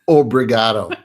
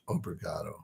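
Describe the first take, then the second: First: It is said loudly. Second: It is said softly.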